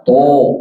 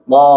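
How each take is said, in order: First: To with rounded o; pouted lips. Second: To with open a-like vowel; open mouth. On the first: Teacher warning against this reading, pouted to. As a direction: pucker on "to". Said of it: "Jangan dibaca to". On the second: Teacher correcting the whole class, open-mouthed to. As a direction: open wide on "to". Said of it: "Mangap, semua mangap". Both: Shown as a demonstration.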